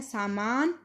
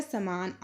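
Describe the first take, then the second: First: सामान with long aa twice; double long vowel. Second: समान with short first vowel; only the second vowel long in समान; Punjabi short vowel. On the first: Teacher giving the Hindi word, long-vowelled सामान. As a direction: hold the first vowel of सामान. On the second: Teacher showing the corrected form, shortened समान. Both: Shown as a demonstration. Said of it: "तो इसका हो जाएगा".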